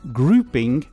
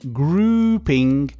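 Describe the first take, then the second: First: The vowel is held for a normal length. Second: The vowel is stretched out very long.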